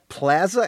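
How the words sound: Plaza is said with a Midwestern-style vowel. "as you just said"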